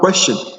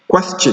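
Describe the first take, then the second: First: The t before -ion is not a ch sound. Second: The t before -ion is a ch sound. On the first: The speaker calls it wrong. "Not question" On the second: The speaker calls it right.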